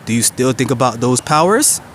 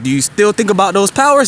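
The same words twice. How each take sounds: First: It is said very slowly and deliberately. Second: It is said at a normal speed.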